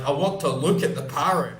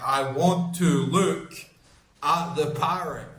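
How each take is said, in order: First: Said in the usual way. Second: Slowly spelled out, word by word; slow, deliberate repeat. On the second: Retold or imitated. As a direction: repeat it slowly for someone who didn't understand. Repeats it slowly for uncomprehending man.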